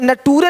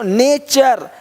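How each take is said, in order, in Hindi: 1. t का उच्चारण साधारण t जैसा होता है। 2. t का उच्चारण ch जैसा होता है। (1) "नटूरे नहीं बोलते" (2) "टी का उच्चारण चा होता है"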